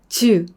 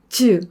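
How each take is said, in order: No difference in how they are said.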